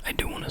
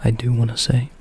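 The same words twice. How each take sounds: First: Breathy ASMR whisper, no voice. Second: Quiet, gentle spoken voice; soft-spoken voice. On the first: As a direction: whisper it close to the mic. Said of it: "you can't really notice on my whisper voice". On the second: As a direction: say it softly aloud. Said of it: "but on my soft-spoken voice". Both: Shown as a demonstration.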